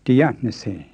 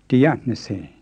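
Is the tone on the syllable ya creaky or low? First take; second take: creaky; creaky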